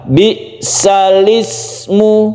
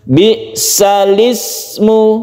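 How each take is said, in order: The two takes are said the same way.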